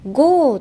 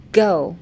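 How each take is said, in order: First: "ゴー" as a simple long Japanese vowel; plain katakana-style "ゴー"; easy Japanese ゴー. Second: Scoop down in the throat on "ゴー"; English "ゴー" with a gliding vowel; throaty English go. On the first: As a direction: say "ゴー" without using the throat. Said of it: "簡単に言うんじゃなくて". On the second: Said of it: "下に一回えぐってる感じ". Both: Shown as a demonstration.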